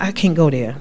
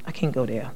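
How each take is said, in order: First: Said in the usual way. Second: Quiet echo of the refusal; quiet repeat. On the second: Real, not acted. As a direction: drop to a much softer echo.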